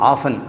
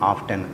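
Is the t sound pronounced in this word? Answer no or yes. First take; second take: no; yes. First: The word is said without a t sound. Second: The word is said with a clear t sound. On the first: "நான் வந்து ஆஃபன் அப்படின்னா அடிக்கடின்னு சொல்லுவேன்" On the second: "American உச்சரிப்பை தான் ஆஃப் டென்னுங்கிறாங்க"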